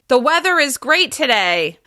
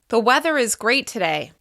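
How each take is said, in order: First: It is spoken louder with slightly higher pitch. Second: It is spoken at normal conversational volume. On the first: The listener is across the room. "your voice got a little bit louder" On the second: The listener is a meter away. "They can hear you without extra volume"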